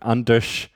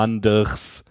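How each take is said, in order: First: The r and s merge into one retroflex sound. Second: The r and s are pronounced as separate sounds. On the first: "they say something like Anders" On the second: "There is an R followed by an S"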